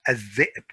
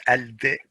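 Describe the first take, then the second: First: Al-dhib said as adh-dhib, l merged into doubled dh; al-dhib with the l assimilated; correct adh-dhib. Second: Al-dhib with the l sounded; al-dhib with a clear l; wrong al-dhib. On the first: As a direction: drop the l in al-dhib. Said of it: "this one". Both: Shown as a demonstration.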